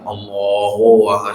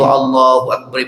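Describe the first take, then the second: First: It is said drawn out and lengthened. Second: It is said briefly, in a plain way.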